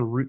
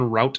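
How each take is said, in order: First: The word is said rhyming with boot. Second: The word is said rhyming with out. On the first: The speaker calls it right. "You say" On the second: The speaker calls it wrong. "You don't say"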